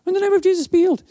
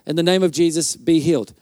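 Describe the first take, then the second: First: High-pitched quick echo of the congregation; imitated group response, pitched right up; crowd repeating a prayer. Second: Said in the usual way. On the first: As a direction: parrot it back in a high, small voice. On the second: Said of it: "real quick".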